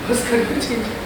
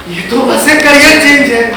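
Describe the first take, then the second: First: Barely audible, much softer; hushed echo. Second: Said in the usual way. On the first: Acted. Artist echoes people's dismissal of his loss, hushed. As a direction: repeat it very quietly, as if to yourself.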